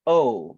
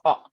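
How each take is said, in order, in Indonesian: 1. Vokalnya sedikit meluncur ke bunyi 'oo'. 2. Vokalnya tetap murni, tidak ada peluncuran. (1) "In English, O. Jadi ada kayak U-nya sedikit" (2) "Kalau di Indo kan kita nyebutnya bahasa Indonesia adalah O"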